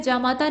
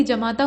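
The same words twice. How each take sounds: First: जामाता with long first aa; first form. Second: जमाता with short first a; corrected form. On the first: Teacher showing the rejected form, जामाता with long first aa. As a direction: say जामाता as "jaamaataa". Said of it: "नहीं बल्कि". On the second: Teacher giving the preferred form, जमाता with short first a. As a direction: say जमाता as "jamaataa". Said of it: "बल्कि जमाता होता है". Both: Shown as a demonstration.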